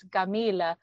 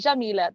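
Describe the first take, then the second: First: The word begins with a hard G sound. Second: The word begins with a soft J sound. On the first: This is the local everyday pronunciation. "they don't do the je, they do a g" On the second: This is the formal standard pronunciation that sounds fancy. "when I said Jamil, ... they don't do the je"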